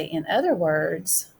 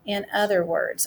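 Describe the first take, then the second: First: "In other words" said a bit slower, with weight on "other"; teacher modelling the starter for the class; careful model phrase. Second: Said in the usual way. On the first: Shown as a demonstration. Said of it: "I'm gonna say". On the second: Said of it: "the sentence starter that we're gonna use".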